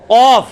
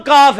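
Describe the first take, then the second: First: قاف loud, far back, rounded "qawf"; deep Qaaf. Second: کاف with a light front k and open "aa"; ordinary Kaaf. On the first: Teacher contrasts it with ordinary k, deep Qaaf. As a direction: hit قاف hard at the back palate. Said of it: "کینچی والا". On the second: Teacher shows the common letter for contrast, ordinary Kaaf. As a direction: keep کاف thin, an everyday k. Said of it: "ایک عام کاف ہے". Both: Shown as a demonstration.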